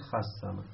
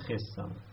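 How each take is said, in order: First: The first consonant takes an 'a' vowel. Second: The first consonant takes an 'i' vowel. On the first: "این صاد حرکتشو میده به ما قبل" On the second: "یک کسره به خا میدن"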